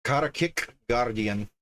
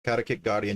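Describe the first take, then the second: First: Karakik Guardian sounded out word by word; careful attempt at Karakik, pause before Guardian; careful pronunciation. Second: Quicker Karakik Guardian with a slight unplanned accent; accidental accent. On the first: Shown as a demonstration. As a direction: Karakik Guardian, slightly accented and deliberate. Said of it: "see if I can pronounce this without butchering it". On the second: Real, not acted. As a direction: let a faint accent creep into Karakik Guardian. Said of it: "I got an accent going on when I say that".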